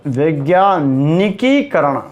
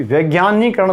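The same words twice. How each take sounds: First: वैज्ञानिकीकरण slowly, "vaigyaa-ni-kee-karan"; correct form. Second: वैज्ञानिकरण as "vaigyaanee-karan"; wrong form. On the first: Teacher dictating the correct word, slow with kee. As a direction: stretch the की in वैज्ञानिकीकरण. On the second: Teacher citing the mistaken word, syllable missing. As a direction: say वैज्ञानिकरण without a kee. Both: Shown as a demonstration. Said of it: "वैज्ञानिकरण नहीं होता".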